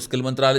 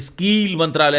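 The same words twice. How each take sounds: First: It is said in the speaker's ordinary accent. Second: It is said with an imitated Gujarati accent.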